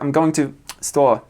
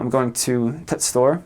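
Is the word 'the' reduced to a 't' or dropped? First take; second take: dropped; t. First: The word 'the' is dropped entirely. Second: The word 'the' is reduced to a 't' sound.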